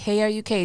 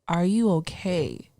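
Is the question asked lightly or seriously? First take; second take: lightly; seriously. First: It is asked in a light, casual way. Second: It is asked in a serious, sincere way.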